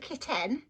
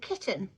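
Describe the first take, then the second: First: The second vowel is a full 'e' sound. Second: The second vowel is a reduced schwa sound. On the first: The speaker calls it wrong. "It's not a kitten" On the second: The speaker calls it right. "So that E there maps with the schwa"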